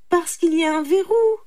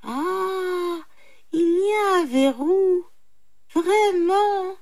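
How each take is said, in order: First: High, loud explanation; reply firmly with raised pitch; brahman retorting. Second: High, drawn-out jackal wonder; mock amazement. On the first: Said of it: "répliqua le brahman". (réplique forte et aiguë) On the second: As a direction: savour it in feigned surprise, pitched high. Jackal feigns amazement at the bolt. (étonnement feint de chacal, voix aiguë) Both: A narrator's reading.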